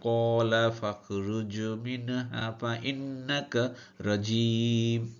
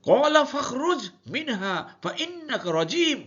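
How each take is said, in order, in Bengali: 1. এটি একই সমতল, একঘেয়ে সুরে পড়া হয়। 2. এটি কঠোর, আদেশের সুরে বলা হয়। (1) "আমরা তো সবসময় একই সুরে পড়ে যাবো এভাবে" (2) "কিন্তু আল্লাহ বলছেন"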